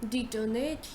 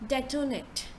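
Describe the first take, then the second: First: It is said without an 'eh' sound. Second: It is said with an 'eh' sound. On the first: The speaker calls it wrong. "instead of saying detonate" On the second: The speaker calls it right. "You bring eh sound to it"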